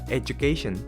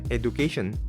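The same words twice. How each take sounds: First: The middle consonant is a J-like sound. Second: The middle consonant is a plain D sound. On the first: The speaker calls it right. "kayak huruf J gitu tengahnya" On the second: The speaker calls it wrong. "nggak pakai D"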